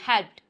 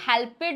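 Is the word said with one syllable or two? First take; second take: one; two. First: The ending is a bare final consonant. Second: The ending is an extra 'ed' syllable. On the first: The speaker calls it right. "मैं सिर्फ डी का sound बोल रही हूँ" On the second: The speaker calls it wrong. "अब आप इसे हेल्पेड नहीं बोलेंगे"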